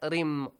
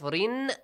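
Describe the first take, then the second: First: The syllable ends with a nasal m sound. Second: The syllable ends with a clear n sound. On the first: "they will read it this way" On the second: "instead of رِن"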